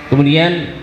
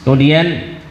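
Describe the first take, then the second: Both takes have the same delivery.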